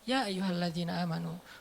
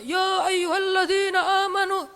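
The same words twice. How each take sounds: First: It is said calmly and relaxed. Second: It is said loudly, like shouting.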